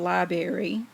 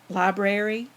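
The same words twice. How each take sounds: First: It is said with the middle r dropped. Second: It is said with both r sounds. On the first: The speaker calls it wrong. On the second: The speaker calls it right.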